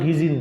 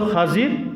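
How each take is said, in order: First: The first vowel is an 'i' sound. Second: The first vowel is an 'a' sound. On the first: This is the common but not original form. The speaker calls it wrong. "তার মূল নাম তো খিজির না" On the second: This is the original correct form. The speaker calls it right. "তার সঠিক উচ্চারণ হলো খাজির"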